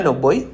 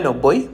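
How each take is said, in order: The two takes are said the same way.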